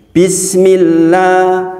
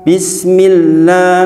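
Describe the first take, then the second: Both takes have the same delivery.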